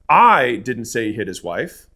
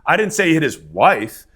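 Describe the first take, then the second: First: The stress is on the word 'I'. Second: The stress is on the word 'wife'.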